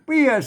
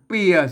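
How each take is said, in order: First: The word is said with the special tho tone. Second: The word is said with the ek tone. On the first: "อ่านเปียเสียงโทพิเศษโทเมือง" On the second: "อ่านเปียเสียงเอก"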